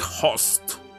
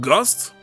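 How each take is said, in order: First: The word begins with an H sound, no G. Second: The word begins with a hard G sound. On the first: "Should be host" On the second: "But ghost?"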